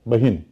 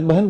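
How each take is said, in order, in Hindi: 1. इस शब्द में अंतिम 'n' से पहले 'i' स्वर है। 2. इस शब्द में अंतिम 'n' से पहले 'i' स्वर नहीं है। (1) "जैसे बहिन कभी था" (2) "आज बहन बोलते हैं"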